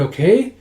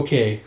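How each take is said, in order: First: "okay" lifted at the end as a question. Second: "Okay" falling at the end; accepting okay. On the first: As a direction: ask for agreement with a rising "okay". Acted request, answered with same word. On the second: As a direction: agree with a settled, falling "Okay". Acted reply agreeing to request. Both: Acted.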